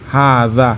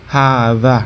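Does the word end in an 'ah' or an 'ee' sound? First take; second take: ah; ah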